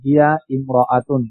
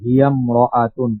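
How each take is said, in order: First: The two words are said separately with the glottal stop. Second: The two words run together without the glottal stop. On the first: "ভেঙে পড়লে এমন হয়" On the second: "মিলাই পড়ার সময়"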